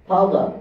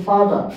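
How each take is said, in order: The two takes are said the same way.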